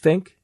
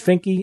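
First: The name ends with a 'k' sound. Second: The name ends with an 'ee' vowel. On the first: The speaker calls it right. "it's Fink" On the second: The speaker calls it wrong. "It's not Finky"

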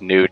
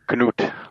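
First: The name starts with an n sound, no k. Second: The name starts with a k sound before n. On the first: This is how the name is said in the United States. "it's Newt. Spell it with a K. ... But the K is silent" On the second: This is how the name is said in Germany. "when I lived in Germany, it was Knut, like the ice bear"

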